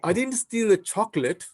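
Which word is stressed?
chocolate. The stress is on the word chocolate.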